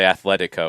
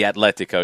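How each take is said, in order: First: It is said with a th sound. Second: It is said with a plain t sound. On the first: The speaker calls it wrong. "Don't say Atletico" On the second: The speaker calls it right. "it'd be Atletico"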